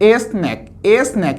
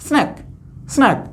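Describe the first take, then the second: First: "এস ন্যাক" in two parts, letter name S then ন্যাক; split blend. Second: "স্ন্যাক" as one short syllable starting sn; blended in one go. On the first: Teacher warning pupils off a reading, "এস ন্যাক" split in two. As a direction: separate "es" from "ন্যাক" in "এস ন্যাক". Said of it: "এরকম বলার সুযোগ নেই". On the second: Teacher modelling for pupils, "স্ন্যাক" blended as one. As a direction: run s straight into n in "স্ন্যাক". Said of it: "একবারে এখানে দন্ত স্বয় ন". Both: Shown as a demonstration.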